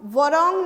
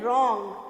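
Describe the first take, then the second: First: The word begins with an audible w sound. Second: The word begins directly with an r sound. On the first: The speaker calls it wrong. "हम वरॉन्ग नहीं बोलते हैं" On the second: The speaker calls it right. "हम क्या बोलते हैं"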